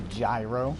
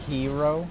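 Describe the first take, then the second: First: The word is said like 'gyro'. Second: The word is said like 'hero'. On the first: The speaker calls it wrong. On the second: The speaker calls it right. "That's supposed to be pronounced hero"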